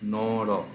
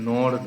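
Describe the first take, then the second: First: Both syllables end with a pronounced vowel. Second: The word ends in a consonant, no final vowel. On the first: The speaker calls it right. "যেহেতু দুটোতেই অ আছে" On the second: The speaker calls it wrong. "এটা নর না"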